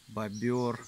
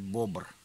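First: The word has two syllables, with a vowel before r. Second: The word has one syllable, with no vowel before r. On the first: The speaker calls it wrong. "Это уж я их бобер зову" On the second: The speaker calls it right. "правильнее сказать бобр"

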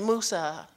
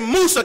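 First: The name is said softly, without force. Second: The name is said loudly, with strong force. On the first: The speaker calls it wrong. "you don't say Musa" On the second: The speaker calls it right. "You say it very robustly"

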